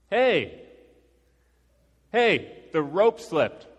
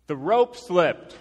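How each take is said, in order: First: Loud, high call up to someone far above; shouted up. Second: Slow, drawn-out high shout; insistent shout. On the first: Climber to the guy above, shouting up. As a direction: shout the alarm up a cliff. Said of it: "I shouted up at him". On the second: Climber repeating himself to the guy above, shouting slowly. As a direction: shout it up slowly so it gets through. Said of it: "paused for a second and just looked up". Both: Retold or imitated.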